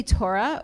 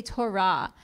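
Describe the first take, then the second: First: "Torah" stressed on the first syllable, TOR-uh; "Torah" with a reduced final vowel; English pronunciation. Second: "Torah" stressed on the last syllable, to-RAH; "Torah" with a full open final "ah"; Israeli Hebrew pronunciation. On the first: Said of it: "influences the way that we pronounce words". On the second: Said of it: "some people might say Torah". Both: Shown as a demonstration.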